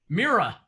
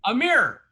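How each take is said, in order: First: "Mirror" in a Southern accent, said as one drawn syllable; Southern pronunciation. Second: Said in the usual way. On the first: Shown as a demonstration. Teaching the group how Southerners say Mirror. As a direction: say "Mirror" the Southern way, close to "mere". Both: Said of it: "you know what they say in the South?".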